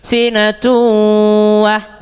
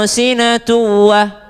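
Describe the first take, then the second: First: The nasal hum before the W is held long. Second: The nasal hum before the W is short. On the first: The speaker calls it right. "Dengungnya bu dua harokat ... lama-lamain dulu" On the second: The speaker calls it wrong.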